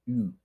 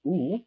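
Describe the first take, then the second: First: "U" said as English "you"; English U sound. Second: "U" said as a pure oo; Spanish U sound. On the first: Teacher contrasts the English letter, "U" as you. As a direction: say "U" with a y glide, English style. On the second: Teacher models the Spanish vowel, "U" as oo. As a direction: say "U" as Spanish oo, no y glide. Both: Shown as a demonstration. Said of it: "instead of U".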